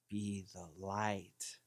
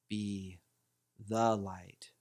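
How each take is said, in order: First: The stress is on "light". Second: The stress is on "the".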